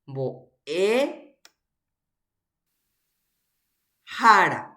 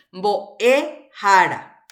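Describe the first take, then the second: First: Teacher pulls "mbo'e" and "hára" apart to show each stress; split into parts. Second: "mbo'e hára" read slowly and louder as one phrase; teacher models "mbo'e hára" in one slow, loud go. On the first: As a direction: break "mbo'e hára" into its two parts with a long gap between. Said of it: "¿Tiene más de una vocal tónica?". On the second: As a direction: say "mbo'e hára" slowly and loudly so the class hears each sound. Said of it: "Ape he'íhina". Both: Shown as a demonstration.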